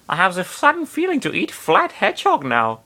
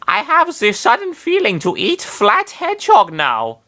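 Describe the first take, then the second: First: Higher, mock German accent reread; faux German accent. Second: Much higher, hammed-up German accent; faux German accent. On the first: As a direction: redo it in a fake German accent. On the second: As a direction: ham up a Teutonic accent. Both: Nana craving hedgehog, in a mock German accent. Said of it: "faux Teutonic accent".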